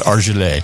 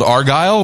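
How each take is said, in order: First: The name is said with a fancy, foreign-sounding ending. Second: The name is said the ordinary, plain way. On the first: It makes a cheap wine sound classier. "it's a fancy pronunciation" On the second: This is the wine's usual name. "a $10 wine called Argyle"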